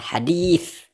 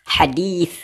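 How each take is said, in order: No difference in how they are said.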